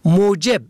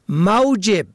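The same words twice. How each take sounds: First: The first vowel is a rounded 'u' sound. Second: The first vowel is an open 'a' sound. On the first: Cause, reason. "به ضم اول" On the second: Salary, wages. "به فتح اول"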